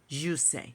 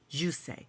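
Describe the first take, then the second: First: The name begins with a soft J sound. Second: The same.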